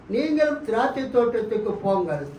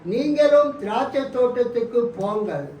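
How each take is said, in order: The two takes are said the same way.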